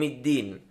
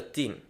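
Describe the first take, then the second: First: The word starts with a d sound. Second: The word starts with a t sound. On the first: The speaker calls it right. "بالدال" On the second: The speaker calls it wrong. "فتخرج معه تاء"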